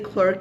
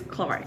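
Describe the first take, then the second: First: The vowel sounds like the one in her. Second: The vowel sounds like the one in car. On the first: "you guys say clerk in Canada" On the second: "the British way of saying like is Clark"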